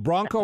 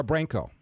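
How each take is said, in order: First: "Bronco" with an open ah in the first syllable; Bronco pronunciation. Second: "Branco" with a short a, as in bran; Branco pronunciation. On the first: Host checking the guest's surname, "Bronco" said with a broad ah. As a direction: say "Bronco" like brahn-koh. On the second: Host offering the other surname option, "Branco" said with a short a. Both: Shown as a demonstration. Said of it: "is it Bronco or Branco".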